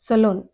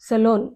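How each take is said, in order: Both takes have the same delivery.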